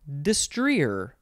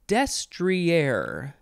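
First: The stress is on a later syllable. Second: The stress is on the first syllable. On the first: "the other way is destrier" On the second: "the first pronunciation has the emphasis on the first syllable"

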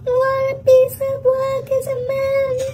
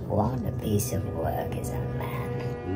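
First: It is said in a high voice. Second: It is said in a lower voice.

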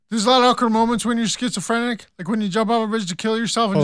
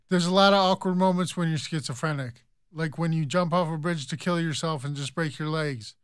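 First: It is said fast. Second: It is said slowly.

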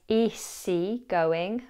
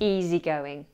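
First: The middle of easy has a hissing S sound. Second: The middle of easy has a buzzing Z sound. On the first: The speaker calls it wrong. "don't pronounce it as easygoing" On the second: The speaker calls it right. "the S in easy is pronounced as a Z"

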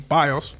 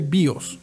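First: The word is given an English pronunciation. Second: The word is given a Spanish pronunciation. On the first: "but I guess in English it would be BIOS" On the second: "In Spanish we say BIOS"

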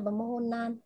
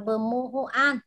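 First: The last syllable is said as nan, with n. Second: The last syllable is said as an, without n. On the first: The speaker calls it right. "Đó là bờ mô hô nan nhé" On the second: The speaker calls it wrong. "Không đọc là bờ mô hô an"

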